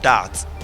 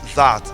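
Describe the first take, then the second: First: The word begins with a hard d sound. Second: The word begins with a soft th sound. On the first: The speaker calls it wrong. "not that" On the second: The speaker calls it right. "T H A T is that"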